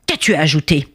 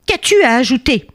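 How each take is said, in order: First: Said in the usual way. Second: Higher, more insistent question; irritated repeat. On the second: Acted. King challenging the cheeky bee, irritated repeat. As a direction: press the question with raised pitch. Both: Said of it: "il s'énerva de nouveau".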